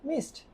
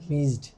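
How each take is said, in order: First: The word ends with a voiceless 'st' sound. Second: The word ends with a voiced 'zd' sound. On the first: The speaker calls it right. "যখন উচ্চারণ করতেছে native স্পিকাররা, তখন এটা হয়ে যাচ্ছে মিসড" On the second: The speaker calls it wrong. "মিজড অনেকজন বলে আর কি।"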